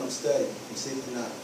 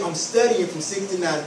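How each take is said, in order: First: Low, soft, half-hearted mumble; mumbled excuse, much lower and softer; weak answer. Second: Steady, no-nonsense refusal; firm and certain, a bit lower. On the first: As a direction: give in softly to baby. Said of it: "This is what it needs to sound like". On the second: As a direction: hold the line calmly. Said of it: "I want you to really get firm". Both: Shown as a demonstration.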